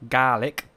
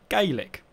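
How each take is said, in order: First: The word sounds like garlic without the r. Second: The word is said the Irish way. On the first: "in Scottish it's pronounced Gaelic. Right. So think garlic without the R" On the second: "Gaelic in Irish, right, is pronounced as Gaelic"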